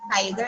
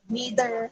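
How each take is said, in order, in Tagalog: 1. Ang salita ay binibigkas sa British na accent. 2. Ang salita ay binibigkas sa American na accent. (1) "for British" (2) "for American"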